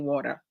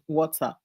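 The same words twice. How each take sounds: First: It is said with an American accent. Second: It is said with a Ghanaian accent.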